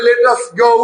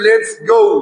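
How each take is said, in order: First: Let and us are said as two separate words. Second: Let and us are joined into one short syllable. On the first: "লেট আস দিয়েও বলতে পারি" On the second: "এই লেট আসের সংক্ষিপ্ত হচ্ছে লেটস"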